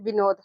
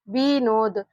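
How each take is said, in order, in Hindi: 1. पहला स्वर छोटा बोला जाता है। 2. पहला स्वर लंबा बोला जाता है। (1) "शॉर्ट टर्म इसका उच्चारण निकल रहा है, इसको हम लोग जल्दी से पढ़ रहे हैं" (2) "बड़ी ई की मात्रा का उच्चारण ज्यादा देर तक होता है, लॉन्ग टर्म होता है"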